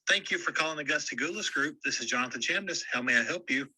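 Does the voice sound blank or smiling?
smiling. It is said with a smiling voice.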